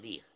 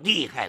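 First: The second syllable is light and unstressed. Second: The second syllable keeps its full falling tone. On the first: Fierce or intense. "这就是剧烈凶猛的意思" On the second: Interests and harms. "这是指利益和损害"

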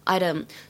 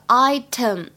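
First: The t sounds like a soft d. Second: The t is a crisp t sound.

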